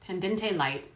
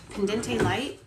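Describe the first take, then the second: First: Pendente light repeated softly, falling; repeating the pronunciation. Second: Pendente light asked with a rise, unsure; unsure pronunciation. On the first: Vlogger repeats the heard word, checking herself. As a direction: echo pendente light quietly. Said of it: "I did say it right". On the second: Vlogger unsure of the Latin term, asking aloud. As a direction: sound out pendente light as a question. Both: Shown as a demonstration.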